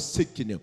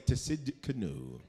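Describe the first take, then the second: First: The name begins with an S, no T. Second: The name begins with a sounded T. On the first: The speaker calls it right. "The T is silent" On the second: The speaker calls it wrong. "Do not say"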